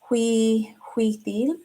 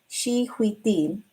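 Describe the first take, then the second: First: The word begins with a 'w' sound. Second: The word begins with an 'sh' sound. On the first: The speaker calls it wrong. "I think I'm saying that right, or maybe this is she" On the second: The speaker calls it right. "So Xi, I think is she"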